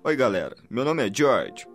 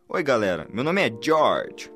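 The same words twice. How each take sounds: First: The greeting is said in a calm, ordinary way. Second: The greeting is said with strong, emphatic energy. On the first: The speaker calls it wrong. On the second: The speaker calls it right.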